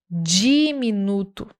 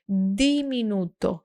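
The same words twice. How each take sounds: First: The first consonant sounds like 'dj'. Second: The first consonant is a soft d. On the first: This is how it is said in Portuguese. The speaker calls it wrong. "Como é que a gente fala essa palavra no português?" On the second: This is how it is said in Spanish. The speaker calls it right. "você tem que usar um D suave"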